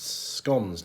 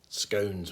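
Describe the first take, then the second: First: The vowel differs from the word's spelling. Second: The vowel follows the word's spelling. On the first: The speaker calls it right. "But it's scones" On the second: The speaker calls it wrong. "how you would pronounce it, based on how it's spelt"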